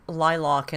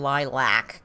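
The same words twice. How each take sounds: First: "lilac" with the second syllable as "lock"; "lilac" ending in an open "ock" sound; pronunciation variant. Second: "lilac" with the second syllable as "lack"; "lilac" ending in a flat "ack" vowel; pronunciation variant. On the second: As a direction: say "lilac" as LIE-lack, drawn out. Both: Shown as a demonstration. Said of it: "Let's see if they do".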